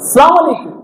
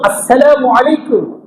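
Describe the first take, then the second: First: The opening syllables of the greeting are dropped. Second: Every syllable of the greeting is pronounced. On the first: The speaker calls it wrong. "সংক্ষেপ করছে কি সালাম আলাইকুম" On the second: The speaker calls it right. "অথচ আসসালামু আলাইকুম ওয়া রাহমাতুল্লাহি ওয়া বারাকাতুহু"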